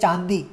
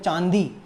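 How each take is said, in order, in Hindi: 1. शब्द नाक बंद करके बोला गया है, इसलिए विकृत है। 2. शब्द नाक और मुँह दोनों से सामान्य रूप से बोला गया है।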